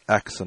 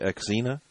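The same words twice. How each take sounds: First: The stress is on the first syllable. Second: The stress is on the second-to-last syllable. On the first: The speaker calls it right. "most of the time it's the first syllable" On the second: The speaker calls it wrong. "We tend to always put an emphasis on the second to last syllable"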